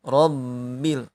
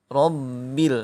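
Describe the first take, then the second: Both takes have the same delivery.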